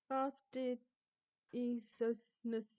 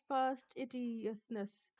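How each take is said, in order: First: The middle syllables come out garbled, without 'idi'. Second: The middle is said 'idious', as in idiot. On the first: The speaker calls it wrong. "that's still a, a, a no-no for me, that word" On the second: The speaker calls it right. "Pronounce the id part like you're saying idiot"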